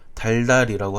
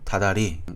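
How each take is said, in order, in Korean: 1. 첫 음절의 ㄹ 소리는 유지됩니다. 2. 첫 음절의 ㄹ 소리는 탈락합니다. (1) "달달이라고 하지 않고" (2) "이렇게 발음을 합니다"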